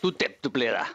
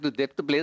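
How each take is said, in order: First: It sounds somewhat aggressive. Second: It sounds friendly and joking.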